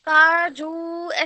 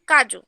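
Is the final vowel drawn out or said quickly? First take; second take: drawn out; quick. First: The final vowel is drawn out. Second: The final vowel is said quickly. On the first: The speaker calls it wrong. "काजू ऐसे नहीं बोलते" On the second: The speaker calls it right. "ये शब्द हम जल्दी उच्चारण उसका जल्दी करते हैं"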